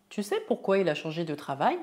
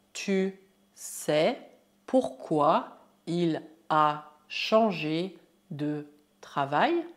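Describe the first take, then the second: First: Quick, joined-up question; fluent run-through. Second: Slow dictation pace; word by word. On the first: Teacher repeats question whole, fast and fluent. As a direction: run it together briskly, rising at the end. Same phrase at quicker speed. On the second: Teacher models longer French question, slow word by word. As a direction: pause after every word of the question. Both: Shown as a demonstration.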